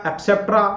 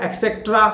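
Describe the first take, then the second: First: एटसेटरा said as "et-se-tra"; correct pronunciation. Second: एक्सेट्रा said as "ek-se-tra", with a k; wrong pronunciation. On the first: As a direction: contrast with the right एटसेटरा, no k. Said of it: "क और प नहीं है". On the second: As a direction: mimic the common mistake, एक्सेट्रा. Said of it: "क या प को उच्चारण कर देते हैं". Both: Shown as a demonstration.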